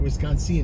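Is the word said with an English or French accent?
French. The word is said with a French accent. "It sounds like better with French"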